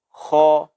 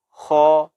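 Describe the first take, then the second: First: The letter is said heavy and thick. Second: The same.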